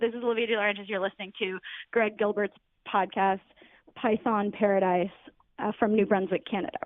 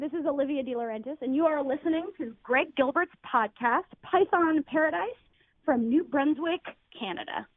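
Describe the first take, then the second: First: It is said in a casual, offhand voice. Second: It is said in a polished presenter voice.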